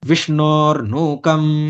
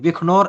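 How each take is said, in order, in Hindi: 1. बीच का व्यंजन मूर्धन्य श की आवाज़ है। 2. बीच का व्यंजन ख की आवाज़ है। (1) "वहां पे उसका शकार ही उच्चारण करेंगे" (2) "ऐसा करके उच्चारण नहीं करेंगे"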